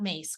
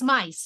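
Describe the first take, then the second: First: The vowel sounds like 'ay'. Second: The vowel sounds like 'eye'. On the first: The speaker calls it wrong. "not mace" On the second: The speaker calls it right. "It's mice, not mace, correct?"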